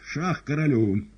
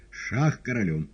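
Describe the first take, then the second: First: Шах королю slow, loud and insistent; repeated check. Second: Шах королю called out loud; announcing check. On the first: Woland repeats check, slow loud insistence. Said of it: "Повторяю". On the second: Woland announces check, loud firm call. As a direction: declare check firmly. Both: A narrator's reading.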